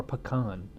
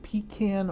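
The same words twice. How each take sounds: First: "pecan" pronounced puh-KAHN, open ah in the end. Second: "pecan" pronounced PEE-can, long ee first. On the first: Asking viewers how they say it, "pecan" as puh-KAHN. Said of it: "pronounce it pecan or pecan". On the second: Asking viewers how they say it, "pecan" as PEE-can. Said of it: "let me know if you th-, pronounce it". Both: Shown as a demonstration.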